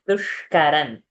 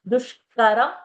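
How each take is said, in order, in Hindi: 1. शब्द का अंत n ध्वनि से होता है। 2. शब्द का अंत m ध्वनि से होता है।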